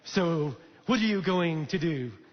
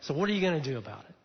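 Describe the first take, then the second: First: It is said in a put-on French accent. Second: It is said in a normal voice.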